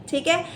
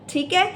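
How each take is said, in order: Both takes have the same delivery.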